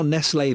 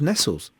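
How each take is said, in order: First: The name is said in a French-like way. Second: The name is said in an English way. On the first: This is how the brand is named today. "it's now Nestle this" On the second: This is how the brand was named in the past. "when I was a kid, it was Nestles"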